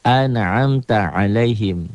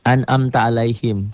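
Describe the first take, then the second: First: Slow "An'amta" with a clear ain sound; correct reading. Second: "An'amta" with alif and ain read the same; wrong reading of "An'amta alaihim". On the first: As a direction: slowly sound "An'amta alaihim" with the ain distinct. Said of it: "Satu alif, satu ain". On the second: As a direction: imitate the common mistake on "An'amta". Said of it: "kok orang banyak baca an'amta". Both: Shown as a demonstration.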